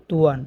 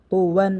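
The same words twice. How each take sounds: First: তুয়ান with a thin light t gliding into uan; common mistake. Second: তো ওয়ান with a thick heavy t, then a separate ওয়ান. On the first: Teacher imitating students' mistake, a thin তুয়ান. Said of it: "এরকমভাবে ভুল করে থাকি". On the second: Teacher showing students the correct heavy তো ওয়ান. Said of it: "তো আমরা উচ্চারণ করব মোটা করে". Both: Shown as a demonstration.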